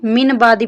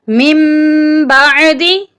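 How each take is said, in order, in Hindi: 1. न की आवाज़ पूरी और साफ़ बोली जाती है। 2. न की आवाज़ म में मिल जाती है। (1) "अक्सर लोग यहाँ पर भी गलती कर देते हैं" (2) "मीम को छोटी मीम के साथ मिलाकर पढ़ना है और नून का सिर्फ हल्का सा साउंड"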